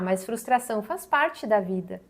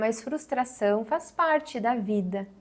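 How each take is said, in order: First: The tone is critical, judging and dismissive. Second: The tone is open, warm and welcoming. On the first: The listener's feelings are minimized and judged. The speaker calls it wrong. "no tom a gente já tem aqui uma postura que é mais crítica, mais julgadora" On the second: The listener's feelings are respected and not dismissed. The speaker calls it right. "é um tom que ele é mais aberto, mais acolhedor"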